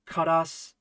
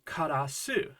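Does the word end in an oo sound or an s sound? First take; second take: s sound; oo sound. First: The word ends on an s sound. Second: The word ends with an oo vowel. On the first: The speaker calls it wrong. "sounds kind of weird" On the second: The speaker calls it right. "I would usually use the u at the end"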